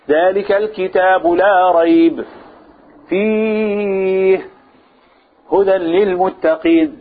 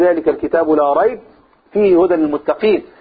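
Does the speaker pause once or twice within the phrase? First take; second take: twice; once. First: There are pauses after both 'la rayb' and 'fihi'. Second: There is one pause, right after 'la rayb'. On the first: "اذا وقفت في واحده لا تقف في الايه؟ لا تقف في الثانيه. فلا تقل مثلا" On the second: "وان كان يجوز ان تقول"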